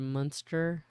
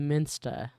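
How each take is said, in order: First: The first vowel sounds like an English 'uh'. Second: The first vowel sounds like a front 'i'. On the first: This is how the speaker assumed it was said. "instead of Munster" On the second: This is how the locals say it. "Sounds like she keeps saying Minsta"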